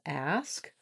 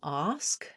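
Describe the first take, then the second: First: The vowel is the front 'a' sound. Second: The vowel is the open 'ah' sound. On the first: The speaker calls it right. "instead of ask" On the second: The speaker calls it wrong. "you might be saying ask"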